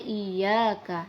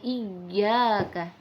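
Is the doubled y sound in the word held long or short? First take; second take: short; long. First: The y sound is short, without pressure. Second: The y sound is pressed and held long. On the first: The speaker calls it wrong. "Tidak boleh iyyaka" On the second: The speaker calls it right. "harus ada penekanan iyyaka"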